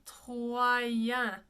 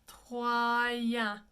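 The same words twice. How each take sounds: Both takes have the same delivery.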